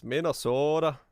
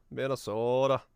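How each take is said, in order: First: Said in the usual way. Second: Lightly mocking Minnesota accent, "Minnesodah". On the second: Shown as a demonstration. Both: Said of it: "Oh, don't you know?".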